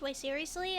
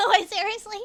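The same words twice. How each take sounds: First: Said in the usual way. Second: A joking fake Southern twang, much louder; fake Southern accent. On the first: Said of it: "That was a faking ac-, Southern accent". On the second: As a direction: ham up a Southern accent, half laughing. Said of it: "Southern accent".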